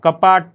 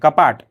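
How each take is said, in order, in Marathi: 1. शेवटच्या व्यंजनाला पूर्ण स्वर असतो. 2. शेवटचे व्यंजन स्वराशिवाय संपते. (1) "कपाट असं नाही म्हणत मी" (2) "शेवटचा वर्ण आहे, हा निभृत म्हणजे अपूर्ण उच्चारला जातो"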